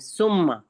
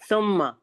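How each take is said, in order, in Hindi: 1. शब्द की शुरुआत सादी s की आवाज़ से होती है। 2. शब्द की शुरुआत नरम th की आवाज़ से होती है। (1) "हम सीन से कहते हैं सुम्मा" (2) "सुम्मा जो है वो सा से है"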